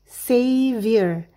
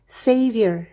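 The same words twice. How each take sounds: First: The word is said slowly. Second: The word is said fast. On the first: "Mari berlatih perlahan terlebih dahulu" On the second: "Sekarang lakukan lebih cepat"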